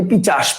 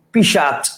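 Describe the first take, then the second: First: "পিচাস" with ch first, sh last; sound-swapped word. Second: "পিশাচ" with sh in the middle; sh first, then ch in "পিশাচ"; changed everyday form. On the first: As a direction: say "পিচাস" as pi-chash. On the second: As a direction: say "পিশাচ" as pi-shach. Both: Shown as a demonstration. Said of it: "পিচাস থেকে আমরা বলি পিশাচ".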